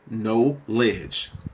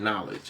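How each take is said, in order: First: It is split into two separate words. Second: It is said as one smooth word. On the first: "but it's now know, ledge" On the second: "We say knowledge"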